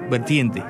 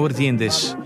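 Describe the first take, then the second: First: The word ends without a final s sound. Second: The word ends with a final s sound. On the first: The speaker calls it wrong. "la canción dice Vertiente" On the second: The speaker calls it right. "no Vertientes"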